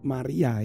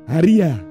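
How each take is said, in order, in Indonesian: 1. Nama ini diawali dengan bunyi M, bibir tertutup. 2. Nama ini diawali dengan bunyi H yang berhembus. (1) "kita tanpa bibir tidak akan pernah bisa menyebut Maria" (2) "Haria gitu. Karena bibirnya tidak menempel"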